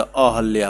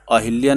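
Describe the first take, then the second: First: अहल्या said with short a, a-hal-yaa, slowly; teacher to students, modelling the correct form अहल्या; correct pronunciation. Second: अहिल्या said with an i, a-hil-yaa; teacher to students, showing the wrong form अहिल्या; wrong pronunciation said. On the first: Teacher to students, giving अहल्या with a short a as the correct form. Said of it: "अहिल्या नहीं होता". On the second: Teacher to students, saying अहिल्या with an i as the wrong form. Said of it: "अहल्या होता है". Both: Shown as a demonstration.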